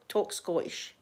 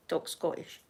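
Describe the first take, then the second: First: Said in the usual way. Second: A conspiratorial whisper to her family; whispered aside. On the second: Shown as a demonstration. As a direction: softly whisper Talk Scottish as a secret. Family told: talk Scottish.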